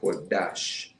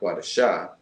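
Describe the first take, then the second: First: The word ends on a consonant, no final vowel. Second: The word ends with an added final vowel sound. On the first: The speaker calls it right. "So Quadash" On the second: The speaker calls it wrong. "not Quadasha"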